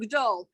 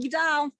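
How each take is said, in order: First: The last syllable has a long O vowel. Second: The last syllable has a vowel other than O. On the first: "I I pronounce it with the long O" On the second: "half the people I know from my show do Ugdal"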